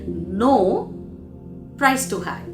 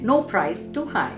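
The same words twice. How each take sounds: First: There is a pause after the word no. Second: There is no pause after the word no. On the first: The request is refused because the cost is too high. "He wanted to say" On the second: Any cost is acceptable. "because the pause wasn't there"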